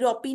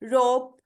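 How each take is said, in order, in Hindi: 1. अंत में एक अतिरिक्त स्वर ध्वनि जोड़ी जाती है। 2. शब्द का अंत बिना किसी अतिरिक्त स्वर ध्वनि के होता है। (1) "रोपी नहीं कहेंगे" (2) "क्या कहेंगे?"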